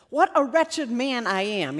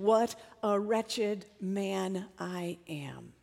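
First: Said in the usual way. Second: Slow, hushed, near-whispered self-reproach; quiet despair, drawn out word by word; voice of condemnation. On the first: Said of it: "he says". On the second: Acted. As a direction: let each word sink, very softly. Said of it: "Paul knew the voice of condemnation".

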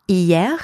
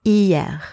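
First: Hier said slowly as ee-YEH, model for repeating; Hier, teacher's clear model, rising end; pronunciation drill. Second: Hier repeated as ee-YEH with falling end; Hier, second model take, falling; pronunciation drill. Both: Shown as a demonstration. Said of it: "please repeat after me to practice your pronunciation".

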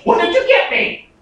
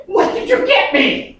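First: A lightly voiced, higher excited kid; eager child voice. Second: Put-on high, eager little kid asking for a present; eager child voice. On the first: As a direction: ask like a greedy little kid. Child greeting daddy, voiced again. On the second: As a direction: squeal it like a six-year-old. Child greeting daddy, voiced.

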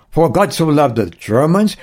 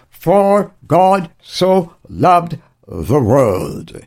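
First: Said in the usual way. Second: "For God so loved the world" drawn out word by word; very slow, separate weight on each word up to "world"; emphatic correction. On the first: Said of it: "He didn't say". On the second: Acted. Corrects the narrowed quote to world.

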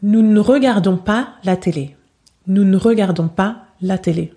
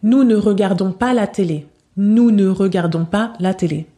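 First: "Nous ne regardons pas la télé" with "ne" cut to a bare n; dropped ne. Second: "Nous ne regardons pas la télé" with a full, clear "ne"; full ne, careful. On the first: Teacher showing students the natural spoken "ne". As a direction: swallow the "ne", just an n sound. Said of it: "Prononciation réaliste". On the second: Teacher showing students the unrealistic, careful "ne". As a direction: pronounce every syllable of "ne" like a textbook. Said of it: "Prononciation pas réaliste". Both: Shown as a demonstration.

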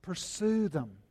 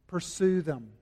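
First: "Pursue" repeated softer, leaning on it with weight; quiet emphasis. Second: Said in the usual way. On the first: Shown as a demonstration. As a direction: drop the voice and press "Pursue them".

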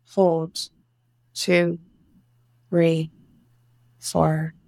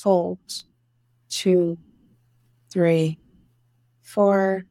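No difference in how they are said.

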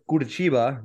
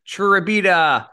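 First: Curitiba said correctly, ku-ri-CHEE-ba, in a matter-of-fact tone; correct pronunciation. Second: Churrabita, said slowly and higher, chu-ra-BI-ta, like an excited crowd; mocking mispronunciation. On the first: Shown as a demonstration. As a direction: set the record straight with Curitiba. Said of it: "Sure, it's Curitiba". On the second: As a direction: call out Churrabita slowly with a falling finish. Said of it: "I called it Churrabita".

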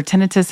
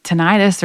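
First: "tinnitus" said TIN-ih-tus; alternative pronunciation. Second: "tinnitus" said tih-NIGHT-us; variant pronunciation. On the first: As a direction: stress the first syllable of "tinnitus", short i. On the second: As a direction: stress the middle of "tinnitus", rhyming it with "arthritis". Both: Shown as a demonstration. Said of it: "however you say it".

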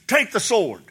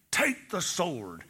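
First: Said in the usual way. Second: Softer and slow, a grave command; hushed divine command. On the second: Retold or imitated. The Lord repeats his command.

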